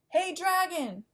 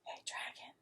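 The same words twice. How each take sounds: First: It is shouted very loudly. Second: It is whispered very softly.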